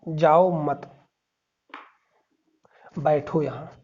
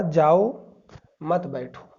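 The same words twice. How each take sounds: First: "जाओ मत" as one unit, long pause, then "बैठो"; pause after मत. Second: "जाओ" alone, short pause, then "मत बैठो" together; pause after जाओ. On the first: Teacher showing what was said, pause after मत. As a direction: break after मत, before बैठो. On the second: Teacher showing what was misheard, pause after जाओ. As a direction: break straight after जाओ, before मत. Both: Shown as a demonstration. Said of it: "अल्प विराम है, इसकी वजह से इसका अर्थ बदल गया है".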